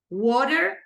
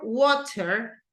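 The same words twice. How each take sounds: First: It is said with an American accent. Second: It is said with a British accent. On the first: "American English" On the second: "English British, uh, British English"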